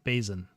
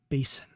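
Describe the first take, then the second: First: The S is voiced like a Z. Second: The S is an unvoiced hiss. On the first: This is the speaker's own habit, considered unusual. "I tend to pronounce it voiced as though it were spelled with a Z" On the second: Someone else says it this way. "she says basin with a non-voiced S"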